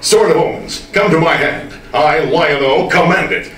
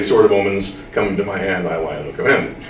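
First: It is said in a bold, dramatic heroic way. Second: It is said in a casual conversational way.

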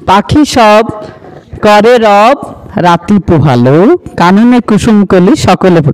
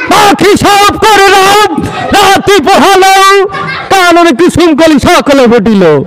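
First: It is recited plainly, like an ordinary poem. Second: It is declaimed like a speech from a stage.

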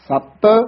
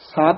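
First: The t sound is held tight and doubled. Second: The t sound is short and light. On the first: The speaker calls it right. "ਥੋੜਾ ਜਿਹਾ ਕਸ ਕੇ ਉਚਾਰਨ ਕਰਨਾ ਹੈ" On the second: The speaker calls it wrong. "ਸਤ ਨਹੀਂ ਕਹਿਣਾ ਹੈ"

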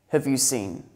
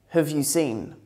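No difference in how they are said.

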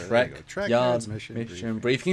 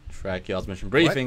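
First: The phrase is said at a slower pace. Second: The phrase is said at a quicker pace.

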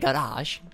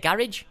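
First: It is said in a posh-sounding way. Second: It is said in an ordinary English way. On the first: This is how upper-class people say it. "Posh people say garage" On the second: This is how ordinary English people say it. "English people say garage"

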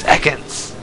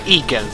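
First: The name is said in the familiar way. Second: The name is said in an odd, unfamiliar way. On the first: This is the expected pronunciation. The speaker calls it right. "it's Ekans!" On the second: Another person says it this way. The speaker calls it wrong. "It's not Ekans"

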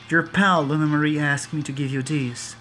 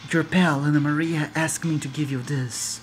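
First: Spoken in a weak, barely put-on character voice. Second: Spoken in a strong, fully put-on character voice. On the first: The speaker calls it wrong. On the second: The speaker calls it right.

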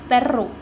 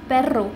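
The two takes are said the same way.

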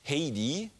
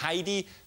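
First: The name is said an unusual, non-German way. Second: The name is said the usual German way. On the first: This is how the name is actually said. The speaker calls it right. "Sie heißt auch anders, als man glauben könnte" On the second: This is how people would wrongly assume it is said. The speaker calls it wrong. "Man könnte glauben, sie heißt Heidi. Falsch"

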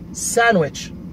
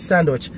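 First: The d sound is left out entirely. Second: The d sound is pronounced in the middle. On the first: The speaker calls it right. "because we have a silent D" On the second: The speaker calls it wrong. "It's not a sandwich"

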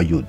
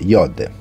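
First: The vowel is a rounded 'oo' sound. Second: The vowel is a rounded 'oh' sound. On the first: The speaker calls it wrong. "no Yud" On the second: The speaker calls it right. "Si pronuncia Yod"

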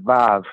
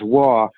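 First: The word begins with a V sound. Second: The word begins with a W sound. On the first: "in modern Hebrew, we pronounce it "Vav."" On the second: "it says "Wah,""

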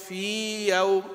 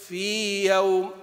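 Both takes have the same delivery.

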